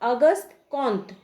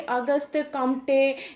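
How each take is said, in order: First: The surname has a nasal vowel without m: Kont. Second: The surname ends with an added vowel: Komte. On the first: The speaker calls it right. "सही प्रोनाउंसिएशन की बात की जाए तो उनका नाम है अगस्त कॉन्त" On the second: The speaker calls it wrong. "बहुत तरह के नाम का हम लोग उच्चारण करते हैं अपने सुविधा के अनुसार"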